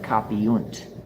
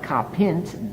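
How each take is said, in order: First: A u sound comes between i and nt. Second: The ending is a short i straight before nt. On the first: The speaker calls it right. "a U to insert itself there" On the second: The speaker calls it wrong.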